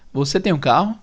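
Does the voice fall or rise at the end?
rises. The voice rises at the end. It asks a question. "Você muda a entonação no final, você sobe um pouco"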